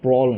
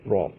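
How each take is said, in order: First: The word ends with a clear L sound. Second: The word ends without a clear L sound. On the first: The speaker calls it wrong. "এটা কিন্তু ব্রল না" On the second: The speaker calls it right. "এটার উচ্চারণ হবে ব্র"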